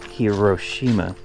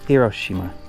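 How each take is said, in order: First: The stress is not on the second syllable. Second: The stress is on the second syllable. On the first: The speaker calls it wrong. "instead of Hiroshima" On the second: The speaker calls it right. "in Japan, it is Hiroshima... the emphasis on the ro"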